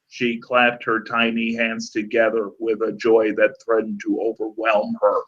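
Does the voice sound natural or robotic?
robotic. It is read in a flat, robotic voice.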